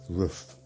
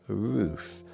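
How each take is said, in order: First: The vowel is short, like in 'cup'. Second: The vowel is a long 'oo' sound. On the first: "That's R-U-F, or R-U-F-F"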